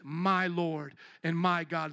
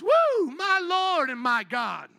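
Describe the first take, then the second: First: It is said calmly, addressed to someone directly. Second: It is a startled, exclaimed outburst.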